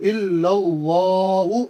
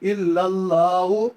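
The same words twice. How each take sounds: First: اللہ with a full heavy l, slow chanted; heavy Allah. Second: اللہ said thin and light, without heaviness; thin Allah, wrong. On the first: Teacher shows the correct heavy pronunciation of Allah. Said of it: "موٹا کر کے پڑھیں گے". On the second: Teacher imitates the common mistake of a thin Allah. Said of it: "اکثر لوگ اس کو باریک کر کے پڑھتے ہیں". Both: Shown as a demonstration.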